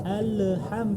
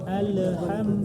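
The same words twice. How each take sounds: The two takes are said the same way.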